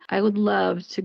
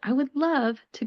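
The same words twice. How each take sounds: First: It is said in a negative, sarcastic tone. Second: It is said in a cheery, enthusiastic tone. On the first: The speaker does not want to do it. "with a more negative, more sarcastic tone" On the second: The speaker really wants to do it. "usually you have a cheery voice. Usually you're more enthusiastic"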